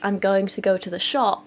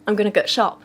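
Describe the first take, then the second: First: It is said in standard English. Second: It is said in Yorkshire dialect.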